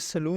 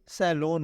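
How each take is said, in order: First: The first vowel is a short 'uh' sound. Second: The first vowel is an open 'a' sound. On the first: The speaker calls it wrong. "ये सलून नहीं होता" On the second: The speaker calls it right. "ये सैलून होता है"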